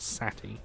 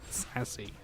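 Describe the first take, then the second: First: The middle consonant is a t sound. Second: The middle consonant is an s sound. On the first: The speaker calls it wrong. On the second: The speaker calls it right.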